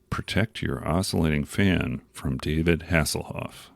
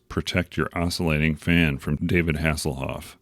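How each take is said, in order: First: Deliberate tagline repeat. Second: Said in the usual way. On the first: Retold or imitated. Tagline repeated for comic effect.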